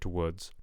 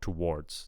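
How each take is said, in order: First: The R sound is missing from the word. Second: The R sound is clearly heard in the word. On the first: The speaker calls it wrong. "I'm not quite hearing the uh, the R come out" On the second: The speaker calls it right. "but I want towards"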